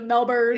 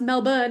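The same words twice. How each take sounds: First: Melbourne is said with an American pronunciation. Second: Melbourne is said with an Australian pronunciation. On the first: This is how the speakers would usually say it. "instead of Melbourne" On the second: This is how the speakers were asked to say it. "they started having us pronounce Melbourne"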